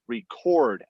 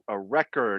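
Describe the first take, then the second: First: The stress is on the last syllable. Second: The stress is on the first syllable. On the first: It is a verb. "on the end it's a verb" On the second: It is a noun. "the accent on the first syllable makes a noun"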